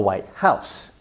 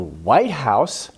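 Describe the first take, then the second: First: The stress is on house. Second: The stress is on white.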